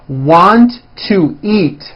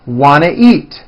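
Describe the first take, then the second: First: Each word is said separately and fully. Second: The words are squeezed together into a reduced form.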